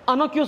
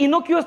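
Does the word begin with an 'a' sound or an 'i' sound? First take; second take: a sound; i sound. First: The word begins with an 'a' vowel sound. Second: The word begins with an 'i' vowel sound. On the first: The speaker calls it right. "अनोक्युअस उच्चार आहे" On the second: The speaker calls it wrong. "इथं इनोक्युअस नाही"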